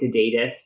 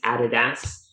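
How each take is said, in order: First: It is said with an American accent. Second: It is said with an Australian accent.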